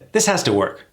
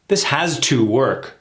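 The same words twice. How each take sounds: First: Has to is reduced and run together. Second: Has to is said in full, carefully. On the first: The speaker calls it right. "This is reduced to has to" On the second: The speaker calls it wrong. "That sounds awkward, doesn't it? Although it's said correctly"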